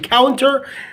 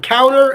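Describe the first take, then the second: First: The t is clearly pronounced after the n. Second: The t is dropped after the n. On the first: "instead of saying counter" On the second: "we can delete the t sound and say only the n"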